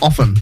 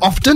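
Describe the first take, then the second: First: The T in the middle is silent. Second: The T in the middle is pronounced.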